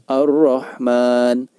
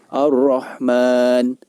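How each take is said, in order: First: The L is merged into a doubled R. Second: The L is merged into a doubled R.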